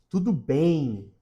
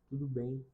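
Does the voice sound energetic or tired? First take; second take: energetic; tired. First: It is said brightly with lively, high energy. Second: It is said slowly with low, tired energy. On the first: The speaker calls it right. "tudo bem com energia" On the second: The speaker calls it wrong. "tudo bem com um tom de cansaço"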